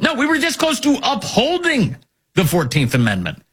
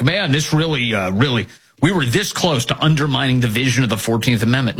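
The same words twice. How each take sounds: First: High, insistent stress on "upholding"; emphatic correction. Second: Low, offhand mock quote; casual liar. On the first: Real, not acted. Host setting the lie straight, emphatic on "upholding". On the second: Host mimicking people who lie so casually, offhand. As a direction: toss it off casually, mocking them. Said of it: "they lie so casually".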